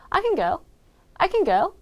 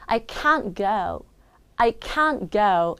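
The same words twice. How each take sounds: First: "can" reduced to a quick "kin", "go" prominent; stress on GO. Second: "can't" long and full, "go" reduced; stress on CAN'T. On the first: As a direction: rush through "can", land on "go". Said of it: "can 발음은 줄어들고 뒤에 있는 go가 크게 읽혀요". ("can"은 줄이고 "go"를 크게) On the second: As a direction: hold "can't", ease off on "go". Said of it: "이 부분을 크게 읽고요". ("can't"를 크게, "go"는 줄여서) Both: Shown as a demonstration.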